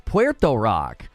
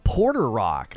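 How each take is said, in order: First: The first word sounds like pwer-toe. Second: The first word sounds like two syllables, por-ter. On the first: The speaker calls it right. "it's Puerto Rock" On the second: The speaker calls it wrong. "That's not his name"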